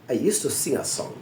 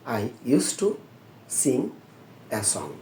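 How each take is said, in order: First: The article is said as a short 'uh' vowel. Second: The article is said with a full 'ay' vowel. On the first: The speaker calls it right. "Article হিসেবে বসলে এটা আ বলতে হয়" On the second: The speaker calls it wrong. "আপনারা এ বলেন"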